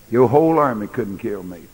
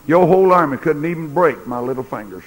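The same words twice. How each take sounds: First: Said in the usual way. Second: Whole leaned on in a firmer retelling; bolder restated boast. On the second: Retold or imitated. Preacher restating Jesus' boast to Pilate, a firmer take. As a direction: punch whole as you say it for him. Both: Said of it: "I can say it for him".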